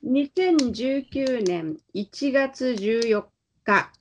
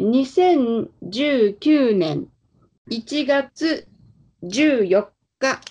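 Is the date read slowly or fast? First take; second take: fast; slowly. First: It is read faster and more naturally. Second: It is read slowly and deliberately.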